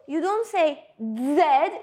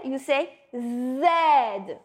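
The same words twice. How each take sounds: First: Said in the usual way. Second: Z said slowly with the tongue a little up; Z buzzed, tongue raised, drawn out; French Z. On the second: Shown as a demonstration.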